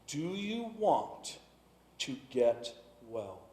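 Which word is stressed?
want. The stress falls on the word want.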